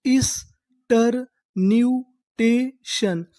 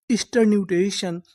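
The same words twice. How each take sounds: First: Very slow, drawn out; slow syllable-by-syllable reading. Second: Said in the usual way. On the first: Shown as a demonstration. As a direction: spell it out slowly for students. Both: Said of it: "तो हमारी पूरी meaning क्या बनी?".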